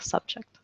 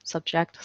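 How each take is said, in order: First: "subject" said subJECT, last syllable stressed; quiet model word; stress at the back. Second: "Subject" said SUBject, first syllable stressed; quiet model word; stress on the front. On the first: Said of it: "you have the emphasis at the back". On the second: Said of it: "emphasis on the front of the word". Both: Shown as a demonstration.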